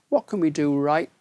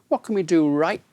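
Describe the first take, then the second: Both takes have the same delivery.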